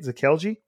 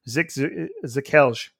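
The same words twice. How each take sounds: First: The name ends with an 'ee' vowel sound. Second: The name ends without a final 'ee' sound. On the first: The speaker calls it wrong. "I believe that's how you say it" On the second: The speaker calls it right. "There's no I there"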